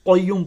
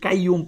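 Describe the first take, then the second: First: It starts with a deep back q sound. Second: It starts with a plain front k sound. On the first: The speaker calls it right. "এখানে কিন্তু কফ, এটা কিন্তু কাফ না" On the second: The speaker calls it wrong. "অনেকেই কাইয়ুম পড়েন"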